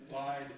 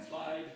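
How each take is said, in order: Both takes have the same delivery.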